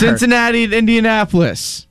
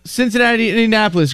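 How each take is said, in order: First: It is said slowly. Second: It is said very fast.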